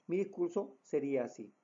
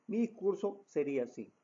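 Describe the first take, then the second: Both takes have the same delivery.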